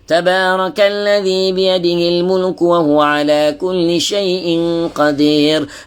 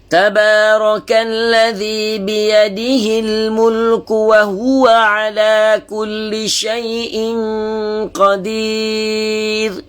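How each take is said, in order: First: It is recited quickly with short vowels. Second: It is recited slowly, word by word. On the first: This is the quick hadar style for revision. "hadar ni dia lebih laju" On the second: This is the careful tahqiq style for beginners. "dia baca lagi lagi lambat, tahqiq ya. Bacaan satu persatu"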